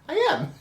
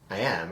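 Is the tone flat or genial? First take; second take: genial; flat. First: It is said in a warm, genial tone. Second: It is said in a flat, plain tone.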